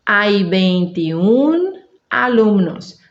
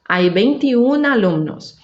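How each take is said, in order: First: Very slow, UN in "veintiún" held long; slow demonstration. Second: Said in the usual way. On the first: Shown as a demonstration. Teacher showing learners the dropped final O, slow demonstration. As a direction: separate "veintiún" from "alumnos" with a clear break. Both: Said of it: "vou dizer assim".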